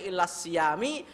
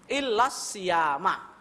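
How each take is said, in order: First: The last word ends with an i vowel. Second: The last word ends with an a vowel. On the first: The speaker calls it wrong. "enggak boleh" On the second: The speaker calls it right. "wajib dibaca fathah"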